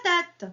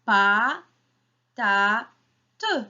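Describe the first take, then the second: First: Said in the usual way. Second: "Pa, ta, te" as three separate beats, first two drawn out and rising; split into syllables. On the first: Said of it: "combien y a-t-il de syllabes". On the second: Shown as a demonstration. Teacher counts with children, syllable by syllable. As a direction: chop "Pa, ta, te" apart with a pause after each. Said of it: "comptez avec moi".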